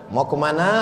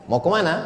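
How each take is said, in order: No difference in how they are said.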